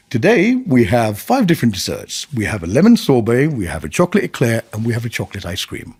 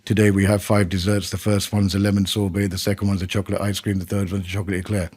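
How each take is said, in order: First: Moving pitch, lifting on lemon; varied intonation. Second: Low, flat, rushing and fading list; monotone list. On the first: Waiter presenting desserts with lively varied intonation. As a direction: make each dessert sound inviting. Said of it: "Because you're moving". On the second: Waiter reading the dessert menu in a dull monotone. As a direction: drone through the menu without interest. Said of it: "The example you gave about someone giving". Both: Shown as a demonstration.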